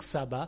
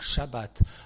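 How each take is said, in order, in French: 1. Le mot commence par un son s simple. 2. Le mot commence par un son sh. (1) "il ne faut pas dire sabbat" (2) "il faut dire shabbat"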